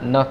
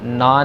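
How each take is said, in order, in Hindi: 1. स्वर छोटा है। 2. स्वर लंबा है। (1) "न कहना है" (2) "ना नहीं कहना"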